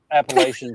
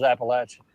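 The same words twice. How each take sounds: First: "Appalachian" as app-uh-LAY-shun; long A in "Appalachian", rhyming with nation; LAY pronunciation. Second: "Appalachian" as app-uh-LATCH-un; short A in "Appalachian", as in latch; LATCH pronunciation. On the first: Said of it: "type out L A Y". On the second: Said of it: "type out L A T C H". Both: Shown as a demonstration.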